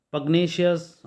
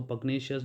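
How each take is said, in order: First: pugnacious announced louder and higher, stress on पग; first take of pugnacious, punched; word introduced with emphasis. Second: Said in the usual way. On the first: Shown as a demonstration. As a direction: present pugnacious as the headline word, leaning on पग. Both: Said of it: "again पग".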